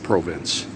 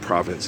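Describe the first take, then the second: First: It is said the way Canadians say it. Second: It is said in a non-Canadian way. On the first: The speaker calls it right. "It's how they say it" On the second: The speaker calls it wrong. "It's not province"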